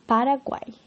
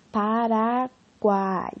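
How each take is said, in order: First: Said in the usual way. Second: "Paraguai" very slow, the final "guai" pulled apart into separate vowels; stretched syllables. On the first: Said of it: "por exemplo". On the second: Shown as a demonstration. Teacher showing poets splitting "Paraguai" for more syllables. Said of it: "podiam separar o U e o A do final".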